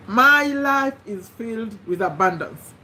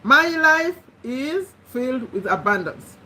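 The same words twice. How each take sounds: First: Slow, deliberate affirmation; slow affirmation read. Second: Spoken again as an affirmation; affirmation repeated. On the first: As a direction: dictate it slowly for writing. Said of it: "number one". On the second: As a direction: repeat it so they can write it down. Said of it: "these are the statements you're going to write". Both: Shown as a demonstration.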